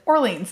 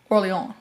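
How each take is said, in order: First: It is said with an American pronunciation. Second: It is said with a non-American pronunciation. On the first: This is how the speaker normally says it. "I am an American ... I pronounce it Orleans" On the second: This is how it is said in the book. "instead of Orleans"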